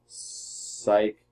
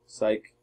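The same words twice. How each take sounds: First: Breathy unvoiced "Psych."; a sly whispered "Psych.". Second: Said in the usual way. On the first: Real, not acted. Choosing the psych move again.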